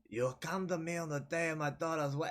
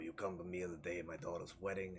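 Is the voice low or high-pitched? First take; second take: high-pitched; low. First: It is a high-pitched pixie New York voice. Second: It is a normal-pitched New York voice.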